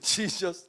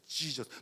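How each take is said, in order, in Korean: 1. 감탄하며 내는 소리처럼 말해요. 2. 짜증 난 욕처럼 말해요. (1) "감탄할 때도" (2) "욕할 때에도"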